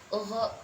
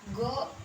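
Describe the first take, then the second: First: It begins with a throaty, rasping fricative. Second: It begins with a hard g stop. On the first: The speaker calls it right. "yang seharusnya ghin" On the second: The speaker calls it wrong. "makhraj atau tempat keluar huruf go dalam bahasa kita itu bukan pangkal tenggorokan tapi pangkal lidah"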